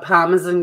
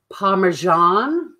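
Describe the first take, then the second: First: The word is said with a non-American accent. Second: The word is said with an American accent.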